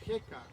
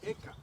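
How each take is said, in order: First: The name begins with an audible h sound. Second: The name begins directly with the vowel. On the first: This is the English pronunciation. "Si lo pronunciamos en inglés sería Heka con H" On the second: This is the Spanish pronunciation. "Si lo pronunciamos en español sería Eka"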